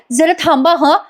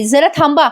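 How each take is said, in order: First: High, sing-song mimicking copy; mocking [name]'s copy. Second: Said in the usual way. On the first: [name] copying Sayali's request, high mocking sing-song. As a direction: parrot the line in a high mocking lilt. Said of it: "ही काय drama करते बघा". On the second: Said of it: "आता प्रिया पण लगेच म्हणते".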